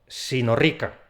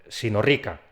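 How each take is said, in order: No difference in how they are said.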